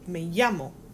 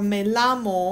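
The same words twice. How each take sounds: First: The double L sounds like an English Y. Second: The double L sounds like an English L. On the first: The speaker calls it right. "it's pronounced like a Y" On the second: The speaker calls it wrong. "we're not pronouncing it like"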